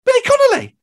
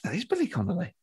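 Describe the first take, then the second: First: Loud, high-pitched shout to a passer-by; calling out. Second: Hushed recognition. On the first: Fan approaching a famous comedian in the street, calling out. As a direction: blurt it out across the street. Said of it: "just approaches them". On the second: Comic nudging a friend on spotting a famous stand-up, hushed. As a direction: say it under your breath, just to your friend. Spots the star, aside to friend. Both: Retold or imitated.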